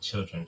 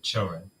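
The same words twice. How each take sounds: First: It is said in a standard, non-Southern way. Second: It is said the way her Southern grandmother says it.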